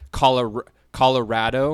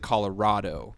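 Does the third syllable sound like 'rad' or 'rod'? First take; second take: rad; rod. First: The third syllable sounds like rad. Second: The third syllable sounds like rod. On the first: The speaker is a local. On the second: The speaker is not a local.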